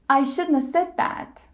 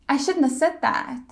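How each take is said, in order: Both takes have the same delivery.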